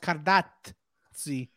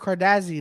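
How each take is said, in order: First: The name is said with an Italian-style pronunciation. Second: The name is said with an English-style pronunciation. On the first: The speaker calls it right. "No, but it's Cardazzi" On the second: The speaker calls it wrong. "Everyone's like Andrew Cardazzi"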